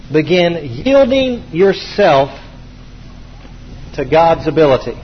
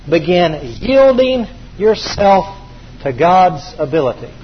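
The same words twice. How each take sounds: First: Slower still, each word apart; very slow dictation. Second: Slow, spaced for note-taking; slow dictation. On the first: Preacher repeating the key slower for note-takers. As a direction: let every word sink in. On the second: Preacher dictating priority key number four, slowly. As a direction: say it slowly so they can write. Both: Shown as a demonstration. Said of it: "repeated for dictation".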